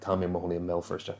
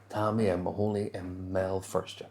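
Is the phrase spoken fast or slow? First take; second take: fast; slow. First: The phrase is spoken quickly. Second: The phrase is spoken slowly. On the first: "I said it really fast, going to sound like" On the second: "we're going to slow it down"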